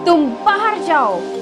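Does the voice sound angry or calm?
angry. It is said in an angry tone. Leave this place right now. "if you are really angry with someone ... change your tone"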